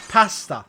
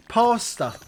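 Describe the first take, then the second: First: Pasta with a flat a, pah-sta; pasta said like an English person; British pasta. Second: Pasta with a wide ah, pah-stuh; pasta said like an American. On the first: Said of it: "English people say". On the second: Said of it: "American people say". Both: Shown as a demonstration.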